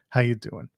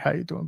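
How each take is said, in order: First: It is said as a plain, friendly greeting. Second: It is said imitating the other guy's manner.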